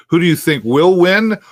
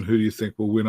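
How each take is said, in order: First: "will win" pushed high and loud; stress on WILL WIN. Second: Said in the usual way. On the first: Real, not acted. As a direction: lean hard on "will win", voice climbing. Re-asks, contrasting think with want.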